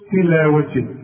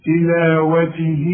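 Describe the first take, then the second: First: The final vowel is not lengthened at all. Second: The final vowel is held for four counts. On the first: The reciter stops after this word. "شوف تلاوته مفيش مد" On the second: The word is joined to the next word. "ده تمد اربعه عند الوصل"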